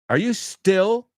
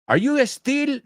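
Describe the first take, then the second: First: Still begins directly with the s sound. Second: An extra e sound comes before still. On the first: The speaker calls it right. "Till rhymes with still" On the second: The speaker calls it wrong. "not estil"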